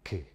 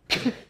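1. 자음을 약하게 터뜨려요. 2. 자음을 가장 세게 터뜨려요. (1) "터뜨려" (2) "더 세게"

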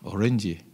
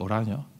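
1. 이 이름은 영어식인 Orange로 발음해요. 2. 이 이름은 네덜란드식인 Oranje로 발음해요. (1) "우리 영어식으로 발음하죠" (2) "원래는 그 오라녀라 그러는데"

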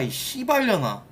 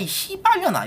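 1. 목소리가 더 낮고 덜 날카로워요. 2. 목소리가 높고 날카로워요. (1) "그냥 ... 이렇게 하면은 차라리 ... 타격감이라도 좀 있는데" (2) "K가 목소리가 약간 하이톤이다 보니까 네. 약간 날카로워"

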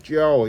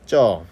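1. 모음은 y 활음으로 시작해요. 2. 모음은 활음 없이 그냥 eo예요. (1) "쪄 이렇게 하는 게 아니라" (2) "아니라 쪄"

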